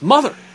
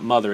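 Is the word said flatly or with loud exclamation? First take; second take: exclamation; flatly. First: The word is said loudly, as an exclamation. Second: The word is said flatly, without excitement.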